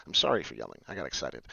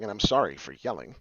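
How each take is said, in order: First: Much lower, lightly voiced Chappelle quote; quoting Half Baked in a low mock voice; David Chappelle line. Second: Said in the usual way. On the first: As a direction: drop way low to imitate the movie line. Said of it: "as David Chappelle would say in Half Baked". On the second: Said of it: "as David Chappelle would say".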